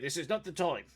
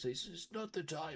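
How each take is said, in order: First: It is said in a normal voice. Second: It is said in an old man's voice.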